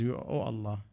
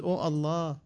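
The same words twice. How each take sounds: First: Much softer, airless plea; breathless gasp. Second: A mild crying plea. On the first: Someone who cannot breathe calls on Allah, softly gasping. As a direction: squeeze it out with no breath left. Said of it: "when you cannot breathe". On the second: A snatched man cries out to Allah, mildly tearful. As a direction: call on Allah, lightly tearful. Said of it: "He cried and said". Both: Retold or imitated.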